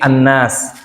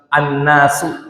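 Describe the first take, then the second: First: The word ends on a bare consonant. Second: The word ends with a final vowel sound. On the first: The speaker calls it right. "tapi An-Nas" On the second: The speaker calls it wrong. "kayak bukan surat An-Nasu gitu"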